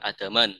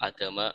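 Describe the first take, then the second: First: The word ends with an added n sound. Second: The word ends on a plain vowel. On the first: The speaker calls it wrong. "bukan adaman" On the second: The speaker calls it right. "adama bukan adaman"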